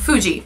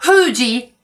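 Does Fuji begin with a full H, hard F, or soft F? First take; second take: hard F; full H. First: It starts with a hard F sound. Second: It starts with a full H sound. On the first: "I said it with a hard F there" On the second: "But do not full H, it's not Fuji"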